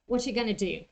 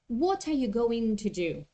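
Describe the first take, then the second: First: The words are shortened and run together. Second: Every word is said fully and separately. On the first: The speaker calls it right. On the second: The speaker calls it wrong.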